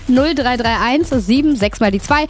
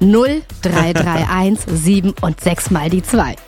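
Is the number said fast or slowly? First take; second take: fast; slowly. First: The number is said at a normal, quicker pace. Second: The number is said very slowly.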